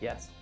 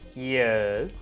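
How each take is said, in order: First: It is said in a more serious character voice. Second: It is said in a silly put-on voice. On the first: The speaker calls it right. "I can do a better voice" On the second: The speaker calls it wrong. "Sorry, that's a silly voice"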